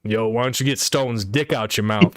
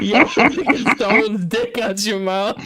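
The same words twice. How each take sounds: First: Said in the usual way. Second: Louder, higher, laughing through the line; laughing quote. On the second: Retold or imitated. Quoting the friend's insult again to him, laughing. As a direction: repeat the insult while cracking up.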